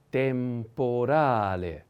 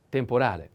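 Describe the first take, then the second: First: Temporale very slowly, syllable by syllable; slow model pronunciation. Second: Said in the usual way. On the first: Shown as a demonstration. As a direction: stretch out temporale, longest on the stressed a. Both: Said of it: "The accent is on".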